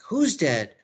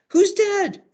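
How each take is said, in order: First: Slightly raised, puzzled question; mildly alarmed acted question; lightly voiced Juliet. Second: Very high, loud shrieked question; panicked Juliet. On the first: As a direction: ask as Juliet, still fairly contained. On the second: Acted. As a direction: demand it in mock hysteria. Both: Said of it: "And Juliet's like".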